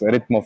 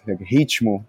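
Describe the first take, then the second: First: It is said with a Czech pronunciation. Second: It is said with a Portuguese pronunciation. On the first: This is how it is said locally. "the pronunciation here in Czech" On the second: This is the word's original form. "it's from Portuguese"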